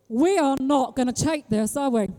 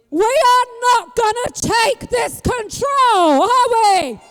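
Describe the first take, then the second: First: Said in the usual way. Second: Higher, louder and slower, drawn out to the crowd; rallying shout. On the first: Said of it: "repeats it louder". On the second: Shown as a demonstration. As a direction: build it into a rallying cry. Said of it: "repeat of line 89".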